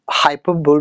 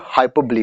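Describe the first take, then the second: First: हाइपरबोल with "bol" as last syllable; alternative pronunciation. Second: हाइपरबोली with a final "lee"; real pronunciation. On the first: Teacher quoting a common reading, हाइपरबोल ending in "bol". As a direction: say हाइपरबोल as hai-per-bol, no final ee. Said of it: "भी पढ़ते हैं". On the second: Teacher correcting the common reading, हाइपरबोली ending in "lee". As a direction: say हाइपरबोली as hai-per-blee. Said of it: "इसका जो real pronunciation होता है". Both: Shown as a demonstration.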